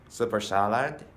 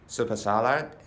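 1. 単語は速く、つながって発音されています。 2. 単語は速く、つながって発音されています。

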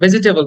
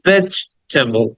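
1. সব সিলেবল কোনো বিরতি ছাড়াই একটানা চলে। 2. veg-এর ঠিক পরেই একটি বিরতি আছে। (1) "but vegetable না" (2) "veg, থেমে যাও, ডট দাও, থামো"

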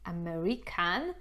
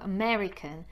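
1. Akcent pada na trzecią sylabę. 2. Akcent pada na drugą sylabę. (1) "to nie jest American" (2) "tylko American"

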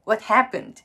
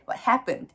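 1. アクセントは「happened」という単語にあります。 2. アクセントは「happened」という単語にあります。

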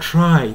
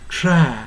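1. この母音は滑らかに変化する二重母音です。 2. この母音は一つの安定した音です。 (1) "普段はtry とI と発音してる" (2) "try になってA のように発音する"

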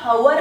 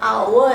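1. शब्दाची सुरुवात h उच्चाराने होते. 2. शब्दाची सुरुवात थेट स्वराने होते. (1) "आपला उच्चार हवर असा नाही आहे" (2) "आपला उच्चार आवर असा आहे"

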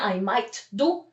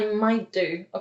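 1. T na końcu might jest wymawiane. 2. T na końcu might jest nieme. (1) "Nie I might do" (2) "tylko I might do"

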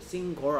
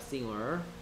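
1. ng 소리 뒤에 강한 g 소리가 나요. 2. ng 소리 뒤에 강한 g 소리가 안 나요. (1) "싱거라고 발음하는 친구도 가끔 있는데 싱거 아니야" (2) "싱어야 싱어"

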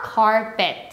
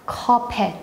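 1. 혀를 뒤로 말아서 발음해요. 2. 혀를 말지 않고 평평하게 발음해요. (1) "혓바닥 뒤로 해서 카펫" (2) "카펫 말고요"

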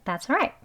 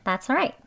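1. 'all'은 약한 'uh' 소리로 줄어들어요. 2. 'all'은 약한 'uh' 소리로 줄어들어요.

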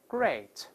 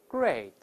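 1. 这个元音听起来像 'ay'。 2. 这个元音听起来像 'ay'。

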